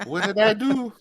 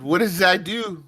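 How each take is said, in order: First: Higher-pitched, hammed-up bad French accent. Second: High-pitched, bad mock French accent. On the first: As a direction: squeak it in a fake French accent. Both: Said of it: "That was my really shitty French accent".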